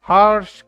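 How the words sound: The r sound is pronounced. "American accent में बोलना चाहते हैं तो आपको आर प्रोनाउंस करना पड़ेगा"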